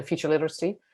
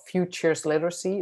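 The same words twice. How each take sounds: First: "future literacy" quickly, with no S on "future"; dropped plural S. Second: FUTURES literacy with a clear final S on "futures"; "futures literacy" said with the S kept distinct; plural S pronounced. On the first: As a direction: run "future literacy" together, losing the plural. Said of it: "you can forget the S". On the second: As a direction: sound the plural S in "futures", carefully. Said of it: "it's plural". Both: Shown as a demonstration.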